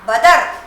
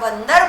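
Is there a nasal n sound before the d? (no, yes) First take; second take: no; yes. First: There is no nasal sound before the d. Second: A nasal n sound comes before the d. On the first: It has no meaning. The speaker calls it wrong. "आपने इसे हटाया" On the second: It names a monkey. The speaker calls it right. "अन का उच्चारण मेरे गले से निकलता ही है"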